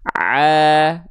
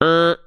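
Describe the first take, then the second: First: The sound is clear, with no nasal twang. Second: The sound is nasal, leaking through the nose. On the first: The speaker calls it right. "Dari tengah tenggorokan masuk ke rongga mulut dan semuanya keluar dari mulut" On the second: The speaker calls it wrong. "masuk ke rongga hidung sehingga ada suara sengaunya"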